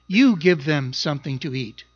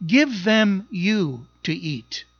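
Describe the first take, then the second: First: Said in the usual way. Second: "Give them you to eat" slow and weighty, each word set apart; rough Greek word order. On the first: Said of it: "In the English, it says". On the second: Shown as a demonstration. Pastor showing the Greek wording of Jesus' command, slow and emphatic. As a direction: lean on "Give" and drag "you to eat" out slowly. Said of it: "in the Greek, it sounds like this".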